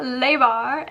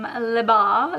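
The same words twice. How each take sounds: First: Le Bar with Le said as "lay"; Le Bar, Le drawn out to rhyme with day; joke mispronunciation. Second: Le Bar with a short "luh" in Le; Le Bar, Le unstressed as "luh"; French pronunciation. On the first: Acted. Repeats it the joke way. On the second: Real, not acted. Name first said properly, then jokingly.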